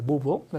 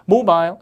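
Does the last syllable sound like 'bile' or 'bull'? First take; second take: bull; bile. First: Front stress, last syllable reduced to 'bull'. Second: The last syllable is a full 'bile'. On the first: "미국식이 되면 발음이 모브 강세 앞에서" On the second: "영국식이 되면 모바일 이렇게 아이를 아이 발음으로"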